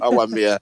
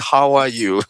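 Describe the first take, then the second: First: It is said in a Black Country accent. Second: It is said in a standard English accent.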